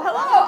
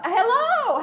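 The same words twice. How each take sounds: First: Loud "hello." rising at the end like a question; mock scream. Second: High, loud "hello," falling at the end; mock scream. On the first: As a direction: call "hello." up with a rising tune. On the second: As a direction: call "hello," down with a falling tune. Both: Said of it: "at the top of the wall screaming".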